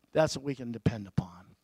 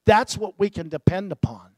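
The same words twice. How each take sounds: First: Soft echo. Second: Said in the usual way. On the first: Acted. Repeated line, softer echo.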